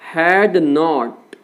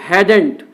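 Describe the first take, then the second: First: It is said as two full words. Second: It is said as one contracted word.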